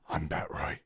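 It is said in a deep, gravelly Batman voice.

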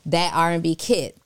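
The word that is strongly emphasized.

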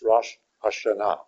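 The two words are kept apart as separate words. The speaker calls it right. "It's two words"

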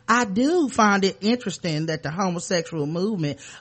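It is said in a Southern US accent.

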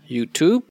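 It is said with an American pronunciation. "American people pronounce it as YouTube"

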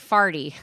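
The vowel is said as in 'ar'.

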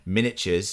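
It is said with an English accent.

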